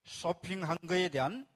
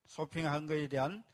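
Both takes have the same delivery.

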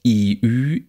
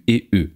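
First: "I, Ü" as long, close front vowels; tense vowels. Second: "E, Ü" as short lax vowels, as in bitte and füllt. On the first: Lecturer models the tense variants, long vowels. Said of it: "Paare von gespannten I, Ü". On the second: Lecturer models the short variants, lax vowels. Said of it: "die kurzen Varianten dazu". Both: Shown as a demonstration.

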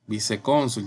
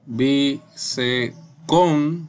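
First: Said in the usual way. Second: "Vicecónsul" very slowly in syllables, "cón" louder; spaced-out "Vicecónsul", stressing "cón"; syllable-by-syllable demo. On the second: Shown as a demonstration. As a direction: break up "Vicecónsul" with pauses, punching "cón". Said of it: "Con su sílaba tónica".

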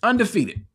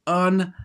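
First: Undefeated said whole, pitched high then falling; emphatic repeat. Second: UNDEFEATED broken into separate syllables, with pauses; emphatic syllable split. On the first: Preacher repeating his key word, undefeated high and unbroken. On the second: Preacher hammering home his key word, undefeated split syllable by syllable. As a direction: draw out "undefeated" piece by piece. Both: Shown as a demonstration.

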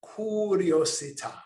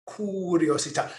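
First: Best Italian accent. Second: Curiosità with a rolled Italian r, kur-ee-oh-zee-TAH, stress on the final TAH; Italian accent. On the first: Teacher models the word for listeners to copy, in a mock Italian accent. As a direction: give curiosità a playful Italian flourish. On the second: Teacher repeats the Italian word for the class, in an Italian accent. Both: Shown as a demonstration. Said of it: "Say it in your best Italian accent".

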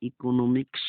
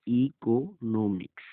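First: Said in the usual way. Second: ইকোনমিক্স slowly, split into syllables. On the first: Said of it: "শব্দের অর্থ হচ্ছে". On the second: Shown as a demonstration. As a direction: set the ই apart in ইকোনমিক্স, then each syllable. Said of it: "সম্পূর্ণ পৃথকভাবে হয়েছে". (ইকোনমিক্স ধীরে, syllable আলাদা করে)

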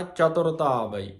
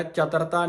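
First: ਚਤੁਰਤਾ ਆਵਈ said as "chatorta aavai"; u sounded in ਚਤੁਰਤਾ. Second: ਚਤੁਰਤਾ said as "chatarta"; ਚਤੁਰਤਾ without u. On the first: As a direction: voice the rounded u in ਚਤੁਰਤਾ. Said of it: "ਔਂਕੜ ਦੀ ਆਵਾਜ਼ ਦੇ ਕੇ". (ਚਤੁਰਤਾ ਵਿੱਚ ਔਂਕੜ ਦੀ ਆਵਾਜ਼) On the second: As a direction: drop the u sound from ਚਤੁਰਤਾ. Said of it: "ਚਤੁਰਤਾ ਨਹੀਂ ਕਹਿਣਾ". (ਚਤੁਰਤਾ ਔਂਕੜ ਤੋਂ ਬਿਨਾਂ) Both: Shown as a demonstration.

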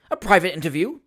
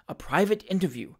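First: Louder, rising incredulous echo; astonished question. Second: Firm, falling confirmation. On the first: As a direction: query it as quite extraordinary. Magistrate astonished at the request. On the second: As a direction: repeat it evenly, leaving no doubt. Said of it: "replied Mister Pickwick, firmly". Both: A narrator's reading.

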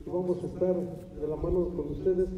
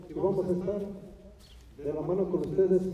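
No difference in how they are said.

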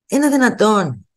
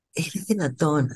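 First: Slow, indignant disbelief, pitch up; incredulous. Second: Much softer, resigned disbelief; quiet repeat. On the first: A vlogger recalls a greedy therapist, slow and incredulous. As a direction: ask it in outrage. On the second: A vlogger repeats her disbelief under her breath. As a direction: say it almost to yourself. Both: Real, not acted.

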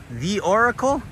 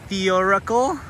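No difference in how they are said.

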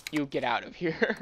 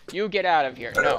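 First: Said in the usual way. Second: Louder, falling "You get out of here"; mock dismissal. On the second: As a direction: punch "out" in "You get out of here", playfully firm.

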